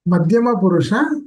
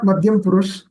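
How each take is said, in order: First: The words end with their final vowels. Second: The words end without their final vowels. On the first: The speaker calls it right. "It is ... Madhyama Purusha" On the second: The speaker calls it wrong. "not Madhyam Purush"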